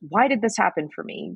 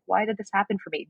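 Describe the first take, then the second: First: It sounds angry. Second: It sounds sad.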